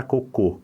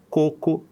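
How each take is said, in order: First: "cocô" stressed on the final CÔ; stress on last syllable. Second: "coco" stressed on the first CO; stress on first syllable. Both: Shown as a demonstration. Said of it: "a gente trocou a sílaba tônica".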